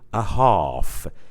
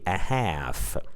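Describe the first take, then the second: First: It is said with a British accent. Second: It is said with an American accent.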